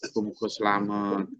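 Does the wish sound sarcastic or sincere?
sincere. It is said in a plain, sincere tone. The speaker truly wishes the listener well.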